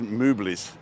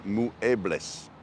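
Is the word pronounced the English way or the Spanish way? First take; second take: English; Spanish. First: It is read with English letter sounds. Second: Every letter is sounded the Spanish way. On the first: The speaker calls it wrong. "if you're reading it with an English word" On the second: The speaker calls it right. "you pronounce every letter in Spanish, so it's actually"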